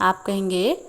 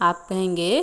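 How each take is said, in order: Both takes have the same delivery.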